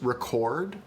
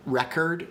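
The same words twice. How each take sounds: First: "record" with the second syllable stressed, full O vowel. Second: "record" with the first syllable stressed, second reduced. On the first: Streamer showing viewers English stress, "record" stressed on second syllable. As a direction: lean on the end of "record". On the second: Streamer showing viewers English stress, "record" stressed on first syllable. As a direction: hit the start of "record", let the end relax. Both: Shown as a demonstration. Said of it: "earlier I said record and record".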